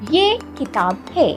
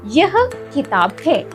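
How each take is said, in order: First: The first word is pronounced ye. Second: The first word is pronounced yah. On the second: "We can say"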